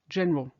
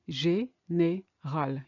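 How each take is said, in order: First: The word is said with two syllables. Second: The word is said with three syllables. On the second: "You hear three syllables"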